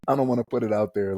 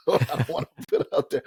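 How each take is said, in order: First: Said in the usual way. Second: Words spilling through a real laugh, pitched up. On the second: Real, not acted. Podcast host laughing to co-hosts about his unprofessional email name. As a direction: laugh while you say it, a bit embarrassed.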